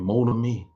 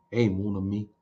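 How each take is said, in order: First: A light Cajun French lilt on "Mon ami", said like Gambit; Cajun French accent. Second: A softer, lightly voiced Cajun French "Hey, mon ami"; Cajun French accent. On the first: Retold or imitated. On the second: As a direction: greet someone easily with a hint of Gambit's Cajun French. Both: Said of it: "Get that French accent, that Cajun accent".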